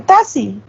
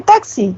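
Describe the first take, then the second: First: "taxi" said as "tasi", the x turned into a plain s; taxi without the x sound. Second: Said in the usual way. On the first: Shown as a demonstration. Teacher showing students a faulty "taxi" said as "tasi". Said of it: "Entonces dicen". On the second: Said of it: "no dicen taxi".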